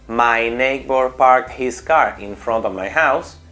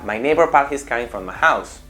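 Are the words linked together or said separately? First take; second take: separate; linked. First: The words are said separately, one by one. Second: The phrase is linked together in one breath. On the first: The speaker calls it wrong. "En vez de decir" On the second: The speaker calls it right. "en el mismo golpe de voz"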